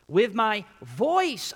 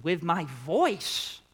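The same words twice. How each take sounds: First: Slow, loud and high on voice; full voice. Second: Said in the usual way. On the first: Shown as a demonstration. Preacher reading the psalm at full voice. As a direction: cry it out like David. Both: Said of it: "notice David mentions his voice not once".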